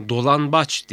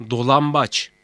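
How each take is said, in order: First: "Dolanbaç" with n before the b; wrong N sound. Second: "dolambaç" with m before the b; assimilated M sound. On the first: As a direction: say "Dolanbaç" with a clear n. ("Dolanbaç", n sesiyle) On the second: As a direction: say "dolambaç" with m, not n. ("dolambaç", m sesiyle) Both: Shown as a demonstration. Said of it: "Dolanbaç değil, dolambaç".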